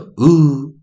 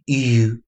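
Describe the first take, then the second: First: The vowel sounds like "oo", without a y-glide. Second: The vowel sounds like "you", with a y-glide. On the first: "oo 这个组合音会引导出来oo" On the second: "是正常的一个长母音"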